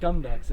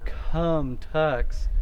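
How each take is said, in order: First: The K and T are plain, without air. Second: The K and T have a strong puff of air. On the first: The speaker calls it right. "It's gum ducks. It's just like you bite the sound off before a bunch of air can come out" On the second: The speaker calls it wrong. "it's not cum tux with a bunch of air"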